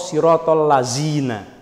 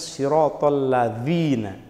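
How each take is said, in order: First: The last word has a z sound. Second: The last word has a th-like sound. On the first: The speaker calls it wrong. "Kan keliru itu" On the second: The speaker calls it right. "Harusnya siratal ladzina. Ujung lidahnya ditempel ke gigi atas"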